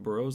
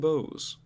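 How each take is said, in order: First: The word is said with an R sound. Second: The word is said with no R sound. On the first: The speaker calls it wrong. "It's not burrows. There's no R" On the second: The speaker calls it right. "that's how you pronounce that"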